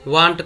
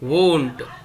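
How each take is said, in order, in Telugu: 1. ఈ అచ్చు 'ah' లా పలుకుతుంది, want లో ఉన్నట్టు. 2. ఈ అచ్చు 'oh' లా పలుకుతుంది, own లో ఉన్నట్టు. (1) "కొంతమంది వాంట్ అని మిస్ప్రొనౌన్స్ చేస్తూ ఉంటారు" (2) "వాంట్ కాదు, వోంట్"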